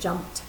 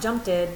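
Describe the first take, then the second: First: The ending is a single final consonant. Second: The ending is an extra separate syllable. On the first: The speaker calls it right. "but jumped" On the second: The speaker calls it wrong. "Not jumped it"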